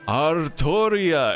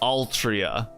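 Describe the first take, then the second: First: The name is said with an R sound. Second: The name is said with an L sound. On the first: "they're not great with uh, L's, so so they're like, oh, Artoria" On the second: "We're gonna call her Altria"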